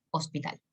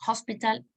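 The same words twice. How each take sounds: First: "hospital" with a silent H; Spanish pronunciation. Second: "Hospital" with a sounded English H; English pronunciation. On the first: Teacher giving the Spanish cognate, "hospital" said the Spanish way. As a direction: say "hospital" as a Spanish word, softer and lower. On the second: Teacher showing how pronunciation changes, "Hospital" said the English way. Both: Shown as a demonstration. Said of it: "la pronunciación usted ya sabe que cambió".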